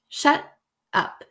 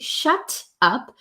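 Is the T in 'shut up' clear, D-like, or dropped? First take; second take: dropped; clear. First: The T is dropped, with a breath break. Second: The T is a clear, crisp T sound. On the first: "there's like a breath in between and no T is pronounced" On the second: "as a proper true T"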